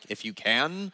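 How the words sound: It is said as a flat statement.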